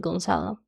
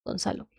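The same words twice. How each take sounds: First: Spanish name said with an English accent. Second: "Gonzalo" said softly with a Spanish open "a"; Spanish pronunciation. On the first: Real, not acted. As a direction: anglicize "Gonzalo" with a flat English "a" in the middle. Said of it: "with an English accent". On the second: Shown as a demonstration. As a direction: say "Gonzalo" quietly, the native Spanish way. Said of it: "names in Spanish".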